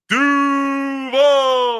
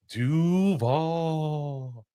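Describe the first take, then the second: First: It is yelled loudly with force. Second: It is said softly with a questioning rise. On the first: The speaker calls it right. "it's supposed to be like yelling it" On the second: The speaker calls it wrong. "that's what he did at his press conference"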